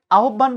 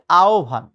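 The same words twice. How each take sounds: First: আহ্বান as "ahubban", with doubled b; wrong pronunciation. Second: আহ্বান as "aobhan", single aspirated bh; correct pronunciation. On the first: Teacher rejecting a non-word, mispronounced আহ্বান as "ahubban". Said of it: "বলে কোনো শব্দ নাই". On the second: Teacher giving the real word, correct আহ্বান as "aobhan". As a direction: glide through আহ্বান as "ao-bhan". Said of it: "শব্দটা হচ্ছে". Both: Shown as a demonstration.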